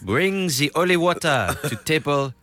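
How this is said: It is said in a put-on French accent.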